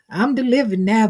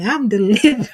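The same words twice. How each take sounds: First: Said in the usual way. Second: Laughing through the words; giggling while saying it. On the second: Real, not acted. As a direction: break into a laugh mid-line.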